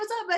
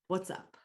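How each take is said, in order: First: It is said quickly in a hurried rush. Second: It is said slowly in a lower, calm tone. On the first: The speaker seems too busy to talk. The speaker calls it wrong. "if I'm going like this and da, da, da" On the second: The speaker has time to listen. The speaker calls it right. "when I bring my tone down, my speed"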